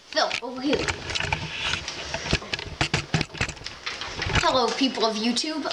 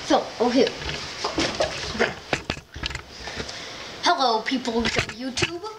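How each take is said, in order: First: It is said in his ordinary speaking voice. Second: It is said in a put-on character voice. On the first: The speaker calls it wrong. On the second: The speaker calls it right.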